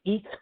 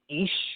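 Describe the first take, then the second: First: It is said in a Berlin accent. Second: It is said in a southern German accent.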